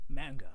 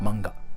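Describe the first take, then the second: First: The sounds are drawn out, English style. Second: The sounds are cut short, Japanese style. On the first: "you guys say it like this one" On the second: "You just cut the sound like manga"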